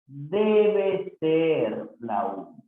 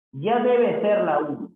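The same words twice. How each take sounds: First: Very slow, drawn-out "Debe ser"; teacher's slow, measured repeat; slow careful correction. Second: Said in the usual way. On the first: Shown as a demonstration. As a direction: stretch out "Debe" and "ser" deliberately. Teacher slowly repeats corrected sentence.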